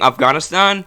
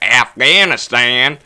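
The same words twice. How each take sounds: First: The name is said with a native-like pronunciation. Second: The name is said with a broad American pronunciation. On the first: The speaker calls it right. "The reason I started saying Afghanistan is because Michael Brooks used to say that" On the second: The speaker calls it wrong. "Everyone else says it the most American way possible"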